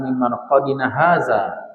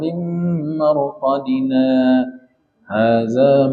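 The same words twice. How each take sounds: First: 'Marqadina' runs straight into 'hadza' without pause. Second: A brief pause without breath follows 'marqadina'. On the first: The two sentences merge and the meaning becomes ambiguous. The speaker calls it wrong. "kalau kita nggak berhenti, tercampur dia" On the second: The two sentences stay separate in meaning. The speaker calls it right. "Harus berhenti sejenak tanpa mengambil nafas"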